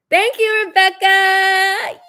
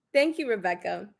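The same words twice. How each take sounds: First: High, loud drawn-out thank you to Rebecca; loud sarcastic thanks. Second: Said in the usual way. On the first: Real, not acted. Calling out Rebecca by name, loud and drawn out. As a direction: call her name out long and pointed.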